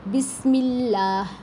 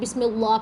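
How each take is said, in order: First: The L sound is thin and light. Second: The L sound is heavy and thick. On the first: The speaker calls it right. "बारीक" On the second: The speaker calls it wrong. "यहाँ पे बच्चे जो है ना पुर कर देते हैं"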